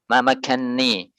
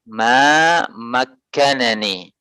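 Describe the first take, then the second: First: The two n sounds merge into one doubled n. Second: The two n sounds are separated by a vowel. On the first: This is the reading as transmitted by Hafs. "kalimat pertama dalam riwayat Hafs yang dikecualikan" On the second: This is the original underlying form. "Asalnya ma makkanani"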